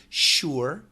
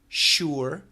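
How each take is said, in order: First: The word stretches into almost two syllables. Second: The word stretches into almost two syllables.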